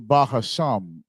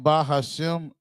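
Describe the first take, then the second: First: The last syllable has an 'ah' vowel. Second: The last syllable has an 'eh' vowel. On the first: "the way that it's spelled is Sham, right? So we're supposed to, it's really Bahasham" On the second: "It sounds like we're putting the E in the the Shem"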